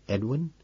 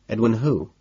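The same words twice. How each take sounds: First: Puzzled. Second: Said in the usual way. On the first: A narrator's reading.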